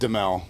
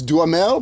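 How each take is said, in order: First: The middle 'ha' syllable is dropped. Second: The middle 'ha' syllable is pronounced. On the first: This is how the family has always said the name. "we've always said Demel" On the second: This is the French way of saying the name. "if you're in France, I think it's Duhamel"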